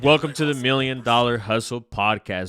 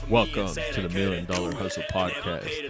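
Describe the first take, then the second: First: It is said in a natural, normal voice. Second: It is said in a put-on, unusual voice.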